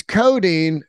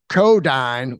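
First: Codeine said as KOH-deen; proper pronunciation. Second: Codyne said slowly as KOH-dyne; odd pronunciation. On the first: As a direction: say codeine the standard way. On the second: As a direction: stretch out Codyne like the song does. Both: Shown as a demonstration. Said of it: "which is codeine".

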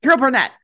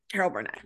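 First: A loud, high burst of recognition; excited recall. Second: Said in the usual way. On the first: Real, not acted. Remembering the comedian's name, blurted out loud and high. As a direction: blurt the name out as it finally comes.

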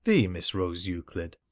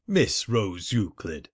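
First: The said long and pointed as thee; correcting him by stressing the. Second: Said in the usual way. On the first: Acted. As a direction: lean hard on the, as in the one and only. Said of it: "Excuse me".

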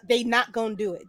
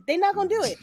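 First: Said in the usual way. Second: Not punched much higher; insist, leaning on not; stress on NOT. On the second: Shown as a demonstration. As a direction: hit the word not hard, pitch jumping up.

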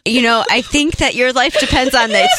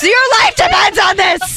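First: Said in the usual way. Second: Higher, louder desperate plea; urgent shout. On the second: Acted. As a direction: shout it like a life depends on it. Persuasion game escalation.

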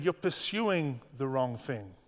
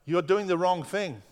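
First: Slow, deliberate and gentle; slowed right down, like a patient teacher; slow gentle correction. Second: Said in the usual way. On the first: Shown as a demonstration. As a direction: lay each word down slowly and kindly. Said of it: "But he said". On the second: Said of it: "He didn't say".

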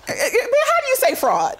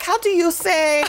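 First: Laughing mid-mock. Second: Mock Hilaria fumbling for a word. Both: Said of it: "She's like".

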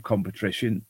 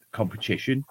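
First: "competition" with a stray r, as "compe-trition"; slip of the tongue. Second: Said in the usual way. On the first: Real, not acted. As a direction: stumble on "competition", slipping an r after the t. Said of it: "competition, competition".

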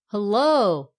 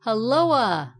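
First: Loud "Hello!" with a long falling second syllable; cried-out hail. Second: Loud "Helloa!" with an extra "uh" on the tail; called-out hail. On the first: Righty hailing the poker in the clouds, crying out. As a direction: call out "Hello!" loudly, stretching the end. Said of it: "cried the right hand iron". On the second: Lefty hailing the poker in the clouds, calling out. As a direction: call "Helloa!" loudly, swooping down onto a final "a". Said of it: "called the left hand iron". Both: A narrator's reading.

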